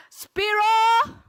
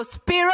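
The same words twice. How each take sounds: First: Very loud, high, drawn-out cheer; full-energy rallying shout. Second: Loud, high call with rising end; rallying call. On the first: Speaker urging a well-fed audience to answer, full-energy rallying shout. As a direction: belt it out to fire up the room. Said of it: "please say it with more energy". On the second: Speaker cueing the audience's rehearsal response, rallying call. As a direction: lead a crowd chant, voice raised high. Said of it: "The first one is a rehearsal". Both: Shown as a demonstration.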